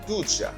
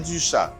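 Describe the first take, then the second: First: The first vowel is an oo sound. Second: The first vowel is a rounded French u. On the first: The speaker calls it right. "le prononcer U comme ou" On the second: The speaker calls it wrong. "Nous pas dit du chat"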